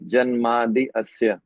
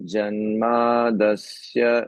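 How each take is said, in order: First: The two words are said separately, unjoined. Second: The two words are merged into one word. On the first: "अलग अलग बोल के उच्चारण करेंगे तो इसको अलग अलग बोलना चाहिए" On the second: "जब साथ में बोलेंगे तो इसको बोलेंगे जन्मादस्य"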